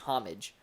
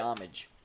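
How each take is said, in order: First: The word begins with a sounded h. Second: The word begins with a silent h. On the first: "he always says with an H" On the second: "I wouldn't pronounce it with a H"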